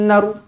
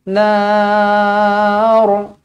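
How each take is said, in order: First: The vowel in nar is cut short. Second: The vowel in nar is held long. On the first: The speaker calls it wrong. "tak boleh berhenti macam tu" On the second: The speaker calls it right. "Dia kena nar sebab ada huruf mat"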